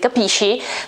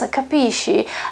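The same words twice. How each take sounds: First: It is said in a harsh, aggressive tone. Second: It is said in a sad, pleading tone. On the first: The speaker is being threatening or unkind. "Of course it can be aggressive" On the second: The speaker is asking for help and understanding. "I'm telling you something sad, I'm telling you that I have troubles"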